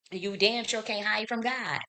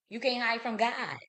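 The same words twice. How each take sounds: First: "damn" vurgulu, yavaş ve ağır; stress on damn. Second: Said in the usual way. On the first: Real, not acted. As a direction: lean hard on damn and slow the whole warning right down. Repeated warning line, slowed.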